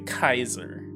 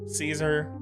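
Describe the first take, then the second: First: The name begins with a hard K sound. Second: The name begins with a soft S sound.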